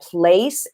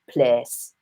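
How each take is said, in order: First: The vowel glides into a Y sound. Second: The vowel stays as one steady sound. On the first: "we're going to get rid of that Y sound" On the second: "bring it down to place"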